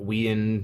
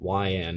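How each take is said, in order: First: The name begins with a 'we' sound. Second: The name begins with a 'why' sound. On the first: The speaker calls it wrong. "not we-end" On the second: The speaker calls it right. "Say Y-and"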